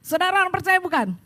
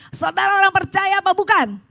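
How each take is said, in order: First: Said in the usual way. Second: Loud, raised-pitch question to the congregation; preacher demanding a livelier answer; rousing call. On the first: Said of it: "saudara lemes banget". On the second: Real, not acted. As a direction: fire up a limp congregation with a forceful shout. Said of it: "sekarang jangan lemes".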